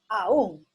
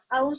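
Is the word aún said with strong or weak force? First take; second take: strong; weak. First: The word is said with strong stress. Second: The word is said with little stress. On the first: It means still. "lo estoy haciendo yo en forma fuerte" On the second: It means even. "no le doy mucha fuerza a la palabra"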